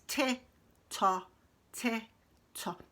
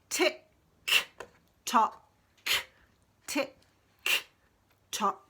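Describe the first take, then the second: First: The final k sounds are weak or missing. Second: The final k sounds are clearly pronounced. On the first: The speaker calls it wrong. "I've heard some children say this like this. No, not right" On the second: The speaker calls it right. "We've got to do that k sound. I've got to really be able to hear it"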